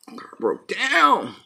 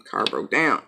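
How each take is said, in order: First: "Car broke down" drawn out slow and higher; mock dramatic. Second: Said in the usual way. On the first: Real, not acted. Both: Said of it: "repeats the phrase".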